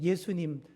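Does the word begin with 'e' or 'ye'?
ye. The word begins with a 'ye' sound. The speaker calls it right. "예 발음을 잘 못하셔요"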